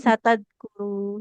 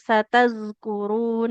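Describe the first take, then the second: First: The consonant is a hard d sound. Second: The consonant is a flowing dh sound. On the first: The speaker calls it wrong. "Jangan jadi satad guru ya" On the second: The speaker calls it right. "Harus ada aliran suaranya"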